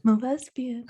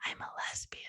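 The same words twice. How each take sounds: First: Spoken aloud, lifting then falling at the end; voiced confession. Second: Hushed, barely voiced whisper; whispered confession. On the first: Retelling the confession, repeated aloud. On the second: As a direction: whisper it like a secret. Retelling confiding her secret.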